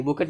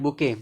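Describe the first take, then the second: First: बुकेट with the final t sounded; wrong reading बुकेट. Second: बुके ending on an open e; correct reading बुके. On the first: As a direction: close बुकेट on a clear t. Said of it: "बुकेट नहीं पढ़ेंगे". (बुकेट, अंत का 'ट' बोलकर) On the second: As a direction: leave the final t silent in बुके. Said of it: "इसको पढ़ेंगे बुके पढ़ेंगे". (बुके, अंत का 'ट' मौन) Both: Shown as a demonstration.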